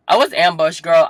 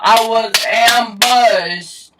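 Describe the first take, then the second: First: Loud, higher outburst; indignant exclamation. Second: Very slow, high, loud holler; drawn-out yell. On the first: Telling viewers about the parents' ambush, indignant. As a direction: exclaim it in dramatic outrage. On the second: Telling viewers about the parents' ambush, drawn-out yell. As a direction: stretch AMBUSHED into a dramatic yell. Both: Real, not acted.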